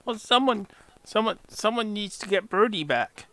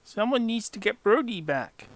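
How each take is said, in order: First: Higher pleading goblin voice. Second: Higher goblin voice, repeated. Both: Acted.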